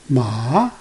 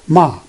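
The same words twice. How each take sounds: First: The pitch rises from low to high. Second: The pitch stays high and level throughout. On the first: It means hemp. "Start from low to high" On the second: It means mother. "It's a horizontal bar"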